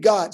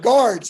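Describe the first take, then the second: First: The word sounds like 'gods', with no r. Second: The word is said as 'guards', with an r. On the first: "At Oral Roberts, we only have one God" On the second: "Oh yeah, guards"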